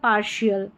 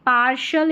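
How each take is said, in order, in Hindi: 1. अंतिम हिस्सा 'shial' की तरह बोला जाता है। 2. अंतिम हिस्सा 'shal' की तरह बोला जाता है। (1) "शल या शियल" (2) "शल या शियल"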